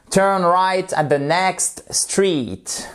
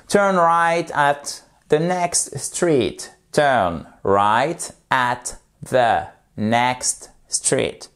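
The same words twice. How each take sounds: First: "Turn right at the next street" said slowly, word by word; slow demo. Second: "Turn right at the next" drawn out, each word stretched; very slow demo. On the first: Teacher modelling a sentence slowly for French learners. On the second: Teacher repeating the sentence even slower for learners. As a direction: crawl through "Turn right at the next" as a model. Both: Shown as a demonstration. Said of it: "Vous faites lentement".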